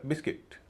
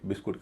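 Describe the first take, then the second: First: The second syllable has an 'i' vowel. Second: The second syllable has a 'u' vowel. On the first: "इसीलिए इसको कहा जाएगा बिस्किट" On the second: "कुछ लोग हालांकि इसे बिस्कुट कहते हैं"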